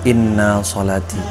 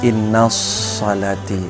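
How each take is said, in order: First: The s sound is short and single. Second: The s sound is doubled and held longer. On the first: The speaker calls it right. "Kita harus membacanya dengan tanpa tasydid" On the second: The speaker calls it wrong. "dengan tasydid"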